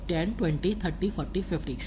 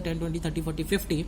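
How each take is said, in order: First: The numbers are said slowly. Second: The numbers are said quickly. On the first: The speaker calls it right. "धीरे से बोलता हूँ" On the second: The speaker calls it wrong. "तेज बोल दिया"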